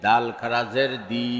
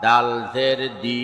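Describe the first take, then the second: First: Final "দি" held long; drawn-out vowel. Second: Final "দি" cut short; quick short vowel. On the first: Teacher demonstrating khara jer, long "দি". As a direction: stretch the last "দি" for one alif. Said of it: "একালিপ টেনে পড়তে". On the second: Teacher demonstrating normal jer, short "দি". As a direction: keep the last "দি" brief, not held. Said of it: "তাড়াতাড়ি করতে হয়". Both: Shown as a demonstration.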